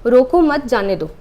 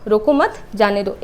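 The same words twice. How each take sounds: First: रोको loud and drawn out, then मत जाने दो; stress on रोको. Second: रोको मत as one unit, then जाने दो; comma after मत. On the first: Teacher shows what the comma changes, stressing रोको, splitting off मत जाने दो. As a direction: punch रोको slowly before the comma. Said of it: "रोको हम लोग बोल रहे हैं तेज से". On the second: Teacher shows the other meaning, grouping रोको मत, then releasing जाने दो. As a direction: join मत to रोको and break before जाने दो. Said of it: "चिन्ह का कितना ज़्यादा प्रभाव पड़ता है". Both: Shown as a demonstration.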